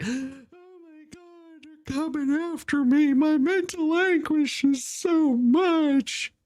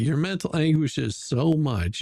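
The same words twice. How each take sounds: First: High, slow, whining put-on voice; mock whiny victim. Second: Said in the usual way. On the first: Mocking the no-shows who cry about being sued, in a high whiny mock voice. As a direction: mimic someone wailing about their mental anguish, high and drawn out. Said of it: "They're just like".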